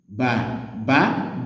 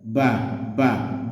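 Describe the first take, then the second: First: Low tone first, then high tone on the second. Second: Low tone on both the first and second syllables. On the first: It means father. "do, mi, father" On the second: It means millet. "do, do, millet"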